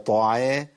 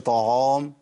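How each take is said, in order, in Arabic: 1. صوت العين خفيف ورقيق. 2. صوت العين ثقيل وغليظ. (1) "العين هنا مرققه" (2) "ما اقولش"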